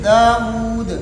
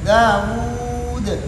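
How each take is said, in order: First: The final long vowel is held the shortest. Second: The final long vowel is held a medium time. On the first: "कसर" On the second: "तवसुत"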